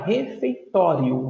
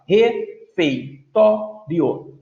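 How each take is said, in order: First: Said in the usual way. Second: "Refeitório" very slowly as re-fei-tó-rio; four separate syllables in "Refeitório". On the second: Shown as a demonstration. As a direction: pause after each syllable of "Refeitório". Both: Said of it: "Se eu fosse separar as sílabas".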